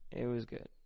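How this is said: It sounds hesitant and unenthusiastic.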